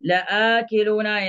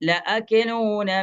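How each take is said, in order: First: The vowel after the first syllable is lengthened. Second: The vowel after the first syllable is short. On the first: The speaker calls it right. "നീട്ടിയിട്ടാണ് ഓതുക" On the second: The speaker calls it wrong. "ഞാൻ ആദ്യം ഓതിയത് തെറ്റാണ് കേട്ടോ"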